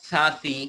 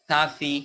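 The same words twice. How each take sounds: The two takes are said the same way.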